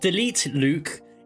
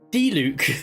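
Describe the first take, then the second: First: The name sounds like 'delete Luke'. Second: The name sounds like 'Dee-Luke'. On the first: The speaker calls it wrong. "Not delete Luke" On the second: The speaker calls it right. "It's D-Luke"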